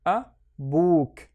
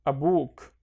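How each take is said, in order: First: "a book" with a gap after "a", "book" drawn out; broken-up demo of "a book", long second syllable. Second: "a book" run together as one word; joined-up model reading of "a book"; syllables joined. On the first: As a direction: sound out "a book" in two separate pieces. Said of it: "read each one on its own". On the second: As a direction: connect "a book" with no gap. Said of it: "and then connect them". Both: Shown as a demonstration.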